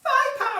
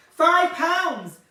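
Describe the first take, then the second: First: Much higher, louder hawker's yell; mock market trader squealing the bargain, much higher and louder; market stall trader. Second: Louder, hollered sales cry; mock market trader calling the price, higher and louder; market stall trader. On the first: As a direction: shriek the price across the market. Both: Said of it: "I feel like a market stall".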